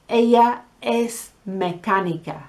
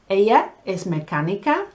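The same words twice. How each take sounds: First: The voice falls at the end like a statement. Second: The voice rises at the end like a question. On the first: It states that she is a mechanic. "She's a mechanic" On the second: It asks whether she is a mechanic. "Is she a mechanic?"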